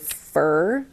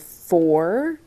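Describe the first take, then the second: First: The word is reduced to sound like 'fur'. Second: The word has a full 'or' vowel. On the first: The speaker calls it wrong. "I tend to say fur. I hate it when I do that" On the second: The speaker calls it right. "Instead of saying for"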